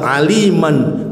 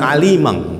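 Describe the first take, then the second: First: The word ends with a plain n sound. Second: The word ends with an ng sound. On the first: This is how the word is recited properly. The speaker calls it right. "tapi kalau dia baca Al-Quran tetap aliman" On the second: This reflects a regional accent carried into recitation. The speaker calls it wrong. "bukan alimang"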